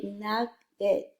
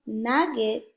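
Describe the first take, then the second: First: "nugget" in two slow syllables, second vowel reduced to schwa; schwa sound. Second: "nugget" with a clear short e in get; full short vowel. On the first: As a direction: say "nugget" split, weakening the e to "uh". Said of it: "it's a schwa sound". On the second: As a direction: say "nugget" with a full "eh" in the second syllable. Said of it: "So instead of". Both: Shown as a demonstration.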